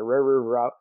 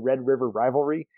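First: The words blur together into a mushy jumble. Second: Each word is said clearly and separately. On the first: "it comes out just like that" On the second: "every time I try to say Red River Rivalry"

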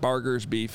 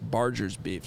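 First: The g in Barger's is not said like barge. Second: The g in Barger's sounds like in barge. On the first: The speaker calls it wrong. "I was calling it Barger's Beef" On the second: The speaker calls it right. "It's barger. Which makes sense because the whole thing's on a barge"

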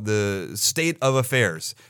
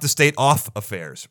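First: The word 'of' ends with a v sound. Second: The word 'of' ends with an f sound. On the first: The speaker calls it right. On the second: The speaker calls it wrong.

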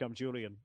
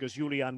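First: The name is pronounced the English way. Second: The name is pronounced the German way.

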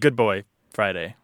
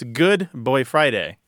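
First: The words group as good boy, then Friday. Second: The words group as good, then boy Friday. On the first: Praise like that given to a dog. The speaker calls it wrong. "instead of" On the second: A helpful assistant who is a good one. The speaker calls it right. "It's about parsing"

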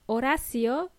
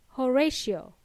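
First: It is said with Spanish vowels and sounds. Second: It is said with English vowels and sounds. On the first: "If your name is Horacio" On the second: "in English, they would pronounce it as"

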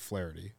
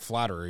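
First: The name sounds like flair followed by tee. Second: The name sounds like the word flattery. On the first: The speaker calls it right. "is it actually Flaherty?" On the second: The speaker calls it wrong. "I said Jack Flaherty's name wrong. I said it Jack Flattery"

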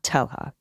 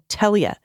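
First: The middle is said with a hard H. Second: The middle is said as an L-Y sound. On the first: The speaker calls it wrong. "not Telha" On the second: The speaker calls it right. "It sounds like Telia"

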